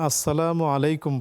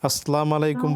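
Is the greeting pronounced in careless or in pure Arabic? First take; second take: pure; careless. First: The greeting is pronounced in pure Arabic sounds. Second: The greeting is pronounced in a careless, local way. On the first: The speaker calls it right. "বলবেন, বিশুদ্ধ" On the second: The speaker calls it wrong. "বলবেন না"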